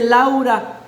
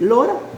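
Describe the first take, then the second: First: The name is said with a Spanish pronunciation. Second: The name is said with an English pronunciation. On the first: "¿cómo se dice Laura en inglés?" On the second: "Se dice Lora"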